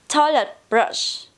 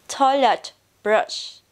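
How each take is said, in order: Both takes have the same delivery.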